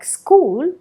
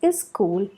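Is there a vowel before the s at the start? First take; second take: no; yes. First: The word starts directly with the s sound. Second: A short vowel comes before the s sound. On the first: "a word like school" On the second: "may be pronounced as is school"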